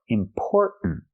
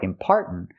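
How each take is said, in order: First: The second syllable has the vowel of store. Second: The second syllable has the vowel of car. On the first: The speaker calls it right. "but or like store and more. Or" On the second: The speaker calls it wrong. "Not are like car and far"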